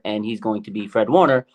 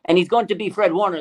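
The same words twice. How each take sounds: First: Said in the usual way. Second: Raised, louder announcer-like hype; big hype-man declaration; emphatic proclamation. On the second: Real, not acted. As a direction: proclaim it high and loud to the crowd.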